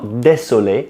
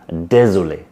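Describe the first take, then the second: First: The middle consonant is a hissing s sound. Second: The middle consonant is a buzzing z sound. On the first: The speaker calls it wrong. "not désolé, like a lot of English speakers say. Désolé with a S" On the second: The speaker calls it right. "No, it's Z"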